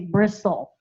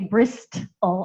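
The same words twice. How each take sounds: First: The T sound is left silent in the middle. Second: The T sound is pronounced in the middle. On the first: The speaker calls it right. "I just say bristle" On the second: The speaker calls it wrong. "I don't say bristle"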